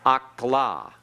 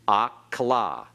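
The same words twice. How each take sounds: The two takes are said the same way.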